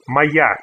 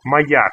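First: Моя said slowly with a clear final a; lady ending a. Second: Моя repeated as a careful model; lady ending a. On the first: Teacher shows the feminine ending, careful and clear. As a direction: stretch the a at the end of моя. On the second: Teacher repeats the feminine form for students, clear. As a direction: model моя, landing on the final a. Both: Shown as a demonstration. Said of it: "needs to get the lady sound a at the end".

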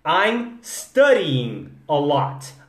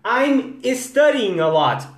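First: I'm studying a lot. very slow, studying starting straight on S; correct studying. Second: I'm studying a lot. said higher, with an E slipped in before studying; wrong studying. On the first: Shown as a demonstration. Teacher giving students the corrected studying, slowly. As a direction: spell out studying with no E before it. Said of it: "Arrumar a sua pronúncia". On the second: Retold or imitated. Teacher imitating a Brazilian student's estudying. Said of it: "quantas vezes eu já ouvi I'm studying".

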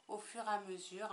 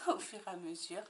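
First: Said in the usual way. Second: Amused echo of her own words; laughing repeat. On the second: Real, not acted.

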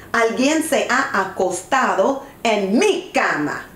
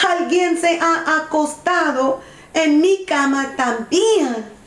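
First: Understated big bear shout; lightly voiced big bear, emphatic; big bear's cry. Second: Higher-pitched middle bear; medium bear voice. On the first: Big bear finds the bed used, understated shout. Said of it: "grita el oso grande en voz alta". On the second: Middle bear finds the bed used, higher character voice. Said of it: "en voz mediana dice". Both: A narrator's reading.

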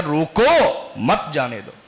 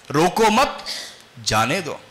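First: Long drawn-out "रोको", then "मत जाने दो" as one phrase; pause after रोको. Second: Group "रोको मत" as one phrase, break, let "जाने दो" drop; pause after मत. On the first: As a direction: stretch "रोको", break, drop through "मत जाने दो". ("रोको" खींचकर ठहराव, फिर "मत जाने दो" एक साथ) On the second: ("रोको मत" के बाद ठहराव, फिर नीचे सुर में "जाने दो") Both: Shown as a demonstration. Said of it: "उसी को मनफी जहनियत से भी पढ़ा जा सकता है".

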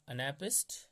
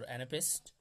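First: First of two ways to say anapest; alternative pronunciation. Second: Second of two ways to say anapest; alternative pronunciation. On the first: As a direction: offer anapest as one accepted pronunciation. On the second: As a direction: offer anapest the other way, as a variant. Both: Shown as a demonstration. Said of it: "anapest or anapest".

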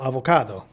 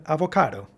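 First: "avocado" with the d kept as a d; alternative pronunciation. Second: "Avocado" with the d softened to a quick tapped r; correct pronunciation. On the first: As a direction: model "avocado" as a-vo-CA-do, no tapped r. ("avocado" pronunciando la d) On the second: ("Avocado" con la d como una r suave) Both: Shown as a demonstration. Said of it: "con la pronunciación correcta".

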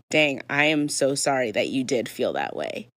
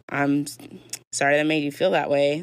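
First: Lower, earnest apology with a falling end; mean the apology, stressing SO SORRY; sincere apology. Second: Insincere sorry, lifting on FEEL; backhanded apology. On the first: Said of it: "you might sincerely be meaning". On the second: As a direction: make the apology sound backhanded by inflection. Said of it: "inflection also matters, guys. Versus". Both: Shown as a demonstration.

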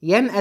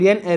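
First: ينأى with its final long alef kept, "yan'ā"; wrong verb ending. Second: ينأى cut to a short final a, "yan'a"; ending without alef. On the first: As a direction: keep the long ā closing ينأى. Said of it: "دي خطأ". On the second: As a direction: shorten the last vowel of ينأى, dropping the alef. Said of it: "بدون علة". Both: Shown as a demonstration.

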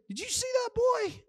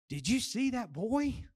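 First: Much higher, strained outcry; alarmed exclamation. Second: Slow, wondering excited question; mild excitement. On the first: Preacher shows the phrase's other meaning, high-pitched outcry. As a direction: blurt it in a high, shocked voice. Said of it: "say it in two different ways". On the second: Preacher shows one phrase two ways, mildly excited wonder. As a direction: ask it with understated, lingering amazement. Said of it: "in excitement". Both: Shown as a demonstration.

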